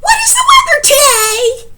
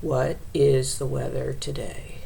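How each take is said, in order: First: High, loud excited shout; over-the-top exclaimed reading, pitched way up; exclamation. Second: Low, soft, deadened statement; "today" sinking low, with no question in it; statement reading. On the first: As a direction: shriek it out with an exclamation mark. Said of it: "an exclamation mark". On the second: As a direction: read "What is the weather today" quietly, falling to a period. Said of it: "Or as a statement". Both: Shown as a demonstration.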